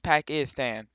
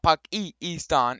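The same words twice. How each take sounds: First: The vowels sound anglicized, like plain English. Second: The vowels sound foreign, not English. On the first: The speaker calls it right. "we speak English around here" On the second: The speaker calls it wrong. "So it's not Pakistan"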